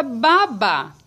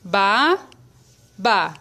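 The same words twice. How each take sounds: First: Said in the usual way. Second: "Ba-, ba" split into two held syllables. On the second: Shown as a demonstration. Teacher showing how babá splits, syllable by syllable. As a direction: clear pause between "Ba-" and "ba". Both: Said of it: "Se eu for separar a sílaba".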